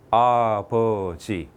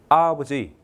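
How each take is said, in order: First: All three syllables have equal stress. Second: The stress is on the first syllable. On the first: The speaker calls it right. "똑같은 세 개의 음절로 되어 있죠" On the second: The speaker calls it wrong. "강세를 앞에 줬습니다"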